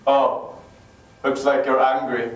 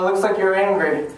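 First: Low-pitched, unimpressed father voice; stern dad. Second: Said in the usual way. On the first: Acted. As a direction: drop low like a dad having none of it. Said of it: "That would never work with my dad". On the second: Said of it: "Daddy, this is how I feel".

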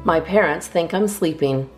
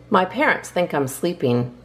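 Both takes have the same delivery.

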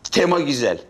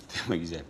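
First: Said in the usual way. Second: "Tema güzel" dropped low and quiet; much softer. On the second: Shown as a demonstration. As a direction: mutter "Tema güzel" under the breath, lower.

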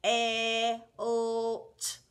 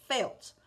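First: Felt stretched into four separate sounds; chopped into sounds. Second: Said in the usual way. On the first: Shown as a demonstration. Teacher segments felt for the student, sound by sound. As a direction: pull Felt apart sound by sound. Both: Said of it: "Four chops".

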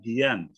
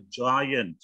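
First: Giant starting with a hard g, as "gi-an"; wrong hard G. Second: Giant starting with a J sound; correct soft G. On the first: Teacher shows students what not to say, hard G. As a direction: mispronounce giant with g as in goat. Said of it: "enggak giant". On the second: Teacher tells students the word for raksasa, soft G. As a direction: say giant as "jai-ant". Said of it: "Kita bilang raksasa itu giant". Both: Shown as a demonstration.

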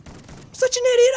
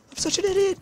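First: Much higher and louder wail; gamer's louder repeat, near shriek; shrieking self-blame. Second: Much higher frantic self-blame; panicked self-scolding. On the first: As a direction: yell at yourself. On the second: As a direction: berate yourself in panic. Self-scolding after blunder. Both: Real, not acted.

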